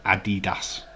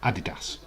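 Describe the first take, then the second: First: Adidas with the weight on "DEE"; Adidas as "a-DEE-das"; stress on middle syllable. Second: Said in the usual way. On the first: Shown as a demonstration. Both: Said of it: "emphasising the wrong part".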